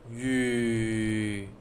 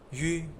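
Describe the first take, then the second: First: The pitch stays low. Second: The pitch is soft and neutral. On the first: "Third is low tone" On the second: "pronounce it without tones"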